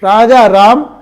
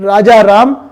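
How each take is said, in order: Both takes have the same delivery.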